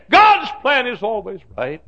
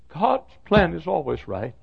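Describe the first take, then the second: First: High, loud preaching cry; impassioned proclamation. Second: Raised pitch, ordinary volume; preached assurance. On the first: Preacher assuring a widow whose life collapsed, loud impassioned cry. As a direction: ring it out to the congregation. Refrain escalated for grieving widow. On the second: Preacher comforting a grieving mom and dad, firm measured assurance. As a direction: affirm it firmly without shouting. First take of preached refrain. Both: Real, not acted.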